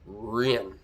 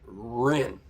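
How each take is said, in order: First: The name begins with an R-like sound. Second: The name begins with an R-like sound.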